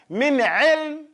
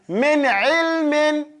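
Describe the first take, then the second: First: The last word ends bare on the 'm' consonant. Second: The last word ends with a full '-in' ending. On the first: "or you can say min ilm" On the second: "it would be min ilmin"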